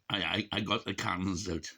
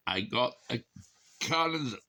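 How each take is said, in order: First: Said in the usual way. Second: Cannons pushed high with a falling finish; emphatic repeat. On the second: Real, not acted. Tipsy vlogger repeats his boast, landing hard on cannons. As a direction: punch up the word cannons.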